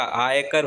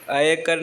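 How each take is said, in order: First: आयकर begun with a long "aa"; correct long vowel. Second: आयकर begun with a short "a", as "aykar"; wrong short vowel. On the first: Teacher giving the correction, आयकर with long opening vowel. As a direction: open आयकर on a full "aay". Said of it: "आयकर होता है". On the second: Teacher showing the mistake, आयकर with short opening vowel. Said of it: "आयकर नहीं होता". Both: Shown as a demonstration.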